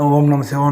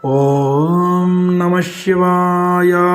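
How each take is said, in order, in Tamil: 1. வேகமாகச் சொல்லப்படுகிறது, எழுத்துகள் சுருக்கமாகச் சொல்லப்படும். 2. மெதுவாகச் சொல்லப்படுகிறது, ஒவ்வொரு எழுத்தும் முழுமையாகச் சொல்லப்படும். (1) "அப்படி சொல்லாம" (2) "இப்படி இது மாரி வந்து சொல்லணும்"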